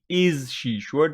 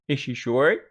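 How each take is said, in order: First: 'Is' and 'she' are said as separate words. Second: 'Is' and 'she' run together into one sound. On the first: The speaker calls it wrong. "you always think that it must be" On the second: The speaker calls it right. "But it is"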